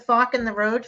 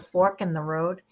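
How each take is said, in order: First: The word fork is said in a Boston accent. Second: The word fork is said carefully, without the accent.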